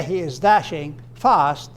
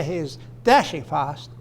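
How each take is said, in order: First: Slow, dashing, then FAST on its own; deliberate gap before a stressed FAST; separate stress on FAST. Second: DASHING punched, fast falling after it; one unit led by DASHING; stress on DASHING. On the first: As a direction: set "fast" apart after "dashing". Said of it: "fast modifies dashing". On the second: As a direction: run "dashing fast" together, weight on "dashing". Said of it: "But if you say". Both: Shown as a demonstration.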